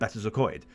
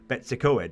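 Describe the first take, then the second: First: The first part sounds like 'Better'. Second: The first part sounds like 'Betsy'. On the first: It is said the way locals say it. The speaker calls it right. "instead of Better Coed" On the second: An outsider who does not know the name said it. The speaker calls it wrong. "people come to to my country or this country of Wales and go Betsi Coed"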